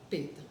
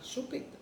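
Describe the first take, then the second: First: "peta" with the first syllable of chupeta dropped; forma infantil "peta". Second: Said in the usual way. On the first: Shown as a demonstration. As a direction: say baby-style "peta" for chupeta. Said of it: "não é pra falar peta". ("peta", forma encurtada de bebê) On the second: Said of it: "a gente vai falar chupeta".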